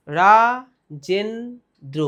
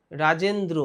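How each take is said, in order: First: Rajendra broken into three slow, drawn-out syllables with pauses. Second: Said in the usual way. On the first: Shown as a demonstration. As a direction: stretch and split Rajendra: রা, জেন, দ্র. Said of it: "কবার খণ্ড হলো?". (রাজেন্দ্র থেমে থেমে, তিন খণ্ডে ভেঙে) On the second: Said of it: "যেটা একবারে বলা যাচ্ছে".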